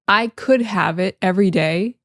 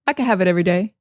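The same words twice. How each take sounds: First: Could is said fully and clearly. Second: Could is reduced and shortened. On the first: The speaker calls it wrong. "instead of" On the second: The speaker calls it right. "we say"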